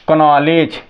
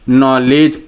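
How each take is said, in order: First: The word starts with a clear K sound. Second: The word starts with an N sound. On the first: The speaker calls it wrong. "लोग बहुत बच्चे बोला करते हैं" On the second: The speaker calls it right. "के है, silent है"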